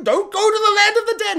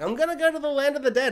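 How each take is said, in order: First: High, loud mock plea; hammed-up urgent cry; alarmed warning. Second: Quick, higher retort in a mock girl's voice; a hint of a determined girl; lightly voiced girl. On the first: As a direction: push it way up in pitch like a panicked warning. Bear's warning acted out. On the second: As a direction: answer back fast and higher, lightly imitating a girl. Girl's defiant reply acted out.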